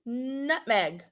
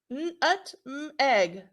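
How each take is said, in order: First: Said in the usual way. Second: "N, ut, m, egg" said sound by sound, slow and separate. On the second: Shown as a demonstration. Teacher repeating the sounds for her class, segmented. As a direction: pull "N, ut, m, egg" apart, pausing between the sounds. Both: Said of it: "You can sound it out now".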